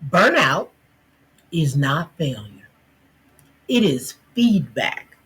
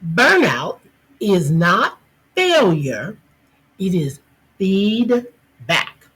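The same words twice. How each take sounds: First: It is said at normal, softer volume. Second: It is said louder, projected to the back.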